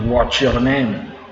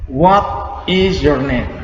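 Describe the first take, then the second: First: 'What is' is run together quickly into one syllable. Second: Both words of 'what is' are said separately.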